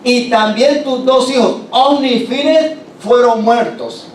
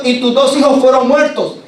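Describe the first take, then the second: First: Más agudo y lento, dando la peor noticia; noticia del mensajero. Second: Más agudo y fuerte, repitiendo la mala noticia; noticia del mensajero. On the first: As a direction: remata la muerte de los hijos despacio. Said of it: "le da la noticia al viejito". (el mensajero le dice a Elí que murieron sus hijos, lento) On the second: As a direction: golpe de la noticia, más alto. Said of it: "Y le está diciendo". (el mensajero repite a Elí la muerte de sus hijos, más alto) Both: Acted.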